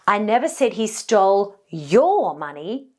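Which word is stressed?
your. The stress falls on the word your. He may have taken someone else's money. "this now implies that maybe he stole somebody else's money"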